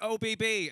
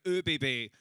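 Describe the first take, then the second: First: "O B B" as English oh-bee-bee; English letter names. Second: "O B B" with a German umlaut on the O; German pronunciation. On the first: Comedian in Vienna saying "O B B" the English way, oh-bee-bee. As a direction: spell out "O B B" with a plain English O. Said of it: "That's pronounced O B B". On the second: Viennese person correcting him, "O B B" with German umlaut O. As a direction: correct it to "O B B" with a rounded German first vowel. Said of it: "and they were like". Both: Retold or imitated.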